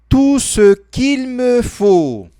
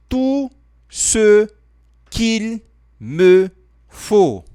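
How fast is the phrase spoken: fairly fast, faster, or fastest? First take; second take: faster; fairly fast. First: The phrase is spoken faster still. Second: The phrase is spoken a little faster. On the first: "Mais rápido ainda" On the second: "Falando um pouco mais rápido"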